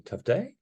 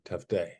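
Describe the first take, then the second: First: "Tough day?" rising up at the end, higher; "Tough day?" as an inquisitive question; questioning rise. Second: "Tough day." falling flat at the end, lower; "Tough day." said declarative, falling; downward statement. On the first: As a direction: ask "Tough day?" with an upward lift. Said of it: "Sounds like a question". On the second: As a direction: state "Tough day." as a fact, pitch dropping. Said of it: "downward inflecting". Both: Shown as a demonstration.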